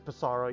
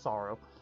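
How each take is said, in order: First: The name is said with three syllables. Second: The name is said with two syllables. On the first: This is the speaker's habitual way of saying it. "I say it as Pissarro" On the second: This is probably the intended way of saying it. "it's probably just Sorrow"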